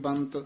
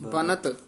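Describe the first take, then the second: First: The n is a nasal, merged into one syllable. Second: The n is fully pronounced with its own vowel. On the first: The speaker calls it wrong. "ਬੰਤ ਕਹਿ ਦਾਂਗੇ ਤਾਂ ਟਿੱਪੀ ਲੱਗ ਜੂਗੀ" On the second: The speaker calls it right. "ਨੰਨਾ ਪੂਰਾ ਲਾਉਣਾ ਹੈ"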